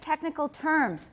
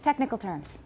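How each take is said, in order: First: The stress falls on the word terms. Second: The stress falls on the word technical. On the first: The speaker calls it wrong. "It sounds excited and weird" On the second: The speaker calls it right. "they are stressed like compounds"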